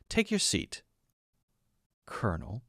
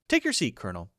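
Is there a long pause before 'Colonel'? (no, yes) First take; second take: yes; no. First: A long pause, then stressed, falling 'Colonel'. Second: It flows on without a long pause. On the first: The listener is being put in his place. "a long pause, and then an emphasis on Colonel with a falling tone" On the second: The tone is friendly or neutral. "instead of"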